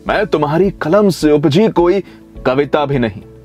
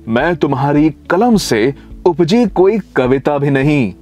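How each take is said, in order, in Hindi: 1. यह पंक्ति एक सहज, लगातार प्रवाह में पढ़ी जाती है। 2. यह पंक्ति रुक-रुककर, अलग-अलग टुकड़ों में पढ़ी जाती है।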